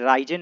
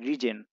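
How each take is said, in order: First: The first vowel sounds like 'rye'. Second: The first vowel sounds like 'rih'. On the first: The speaker calls it wrong. "इसे राइजन नहीं पढ़ना है" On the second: The speaker calls it right. "इसे री पढ़ना है"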